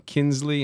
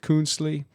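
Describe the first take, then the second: First: The name is said as Kinsley. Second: The name is said as Kunzli. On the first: This is the family's own pronunciation. "The pronunciation Kinsley instead of Kunzli" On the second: This is how Germans would say it. "instead of Kunzli"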